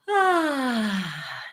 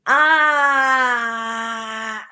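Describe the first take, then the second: First: The voice is open and relaxed, with audible air. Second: The voice is tight and strained, with little air. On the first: The speaker calls it right. "Open throat" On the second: The speaker calls it wrong. "that's pressed phonation with unbalanced airflow and a back placement"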